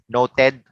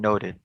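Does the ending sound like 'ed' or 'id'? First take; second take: ed; id. First: The ending sounds like a literal 'ed'. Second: The ending sounds like an 'id' sound. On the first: The speaker calls it wrong. "it's not literally the E and the D" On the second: The speaker calls it right. "it's the I D at the end"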